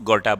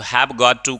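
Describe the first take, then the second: First: The words run together into two short syllables. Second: Each word is said separately and in full. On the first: "गोटा बोलो"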